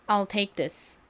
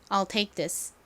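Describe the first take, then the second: Both takes have the same delivery.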